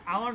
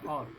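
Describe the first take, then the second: First: The word is drawn out into two syllables. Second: The word is said as one short syllable. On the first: The speaker calls it wrong. "এটা আওয়ার না" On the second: The speaker calls it right. "উচ্চারণটা অর হবে"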